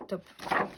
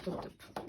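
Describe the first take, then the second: First: Said in the usual way. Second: Soft breathless whisper of "top, top"; delighted whisper. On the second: Real, not acted. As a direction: whisper the repeated "top, top" to herself. Repeats praise under her breath.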